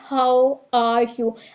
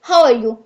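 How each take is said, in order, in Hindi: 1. यह वाक्यांश धीरे बोला गया है। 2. यह वाक्यांश बहुत तेज़ी से बोला गया है।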